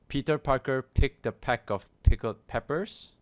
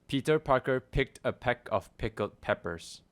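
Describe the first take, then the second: First: The p sounds burst with strong popping puffs. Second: The p sounds are softer with less popping. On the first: "here's what it sounds like without the pop filter" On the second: "I'm gonna put the pop filter on"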